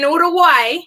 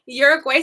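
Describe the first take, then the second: First: Uruguay said the Spanish way, "oo-doo-WAI"; Spanish pronunciation. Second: Uruguay said the English way, "YUR-uh-gway"; English pronunciation. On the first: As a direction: say Uruguay with a tapped r and a final "why". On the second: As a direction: say Uruguay starting with "yoor", ending in "gway". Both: Shown as a demonstration. Gives Spanish name, then English.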